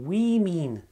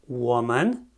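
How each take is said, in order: First: Women said as WIM-in; careful pronunciation. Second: Woman said as WOO-mən; careful pronunciation. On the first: Teacher showing plural women to students. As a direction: say women with an i sound in both syllables. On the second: Teacher showing singular woman to students. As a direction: say woman with a rounded oo and a weak second syllable. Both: Shown as a demonstration. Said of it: "Atenție la această pronunție".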